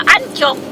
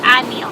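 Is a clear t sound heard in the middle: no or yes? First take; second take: yes; no. First: The word is said with a clear t sound. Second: The word is said without a clear t sound. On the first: This is how some other people say it. The speaker calls it wrong. "Pero yung iba" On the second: This is the locally correct way to say it. The speaker calls it right. "ang correct pronunciation niyan"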